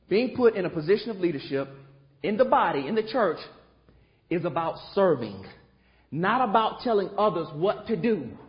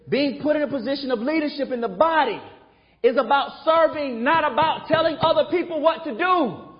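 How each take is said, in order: First: It is said at normal volume. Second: It is said loudly.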